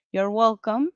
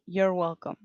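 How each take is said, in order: First: Said in the usual way. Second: You're welcome run together as in speech; spoken form of You're welcome. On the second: Shown as a demonstration. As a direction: say You're welcome clipped and casual. (You're welcome como se dice oralmente) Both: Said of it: "en la oralidad se dice así".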